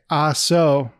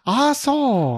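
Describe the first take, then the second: First: It is said in the speaker's normal voice. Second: It is said in an exaggerated put-on accent. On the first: The words are merely quoted. The speaker calls it right. "so if I just say" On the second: The words are used to mock someone. The speaker calls it wrong. "Instead of"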